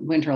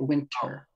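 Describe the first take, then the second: First: It is said in an ordinary American accent. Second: It is said in a British upper-class accent.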